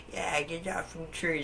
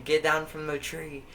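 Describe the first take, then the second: First: High, put-on old lady voice; imitated old lady. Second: Louder, higher mock order; imitated old man. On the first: Old lady butting in from a tall building, high mock scolding. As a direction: pitch it up as a meddling old woman. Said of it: "some old lady somehow heard me". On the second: Old man ordering kids out of a tree, raised mock yell. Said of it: "He's like".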